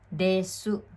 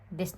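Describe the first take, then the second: First: The final u sound is clearly pronounced. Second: The final u sound is dropped.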